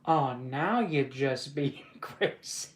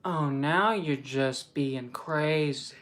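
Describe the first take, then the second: First: Slow, drawn-out line broken by laughter; stretched words giving way to a laugh; failing straight face. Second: Slow, drawn-out delivery held without laughing; straight-faced retake. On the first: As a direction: crack up before the last word. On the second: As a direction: stretch each word, keep a straight face. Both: Acted. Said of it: "I gotta stay with a straight face".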